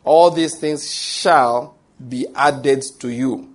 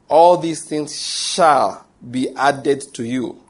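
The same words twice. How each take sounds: First: All these things shall, each word weighed slowly; emphatic slow reading. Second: All these things shall repeated slowly and firmly; emphatic slow repeat. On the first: Preacher driving the promise home to listeners, slow and emphatic. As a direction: read it slowly, leaning on shall. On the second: Preacher repeating the promise for the congregation, slow and emphatic. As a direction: say it again, slow and weighty. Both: Shown as a demonstration. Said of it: "There's an emphasis there".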